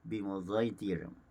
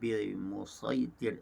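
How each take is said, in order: First: The s sound is blended with a z sound. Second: The s sound is said as a plain sad. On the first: "dibaca secara ishmam" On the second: "dibaca secara tahqiq"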